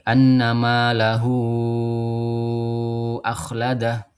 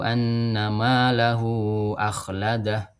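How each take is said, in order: First: The vowel after 'lahu' is held very long. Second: The vowel after 'lahu' is kept short. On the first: "dengan tol munfasil, ya domir mat munfasilnya yaitu dibaca enam harokat" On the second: "dua harokat saja, qasar"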